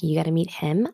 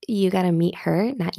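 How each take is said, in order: First: "Him" stressed with a sharp rise; quick phrase, pitch climbing on "Him". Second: "Her" stressed with a rise. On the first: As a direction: hit "Him" as the contrasting word. Corrects title, her not him. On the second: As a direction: lean on "Her" at the end of the title. Contrasts show title with another. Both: Real, not acted.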